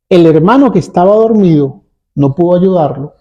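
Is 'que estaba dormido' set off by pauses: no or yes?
no. It is read straight through without pauses. It picks out which brother could not help. "Leída así"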